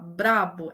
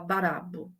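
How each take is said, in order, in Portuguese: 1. A palavra começa com um encontro br. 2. Uma vogal extra separa o encontro br. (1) "ao invés de falar brabo" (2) "ela coloca uma vogal a mais"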